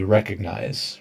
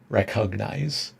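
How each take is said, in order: First: It is said quickly with a softened g sound. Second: It is said slowly with a strong g sound. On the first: "most people make it softer when they're speaking" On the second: "if you go really slow and you try to overpronounce"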